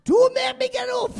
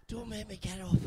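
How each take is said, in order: First: High, slow whiny yell; mock shout. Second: Said in the usual way. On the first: Comic drunk on a beanbag shouting he won't get up. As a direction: protest loudly from the beanbag.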